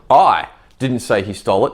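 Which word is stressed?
I. The stress is on I.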